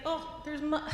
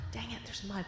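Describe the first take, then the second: First: Mock surprise. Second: Sighing, much softer, resigned; a sighing little boy giving up. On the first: Boy spots mud on the way. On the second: Acted. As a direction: let the air out in defeat. Boy resigned about the mud.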